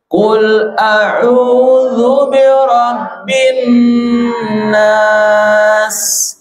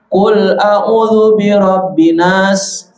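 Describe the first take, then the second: First: The vowels in au and nas are held long. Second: The long vowels are cut too short. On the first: The speaker calls it right. "Yang tepat adalah" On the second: The speaker calls it wrong.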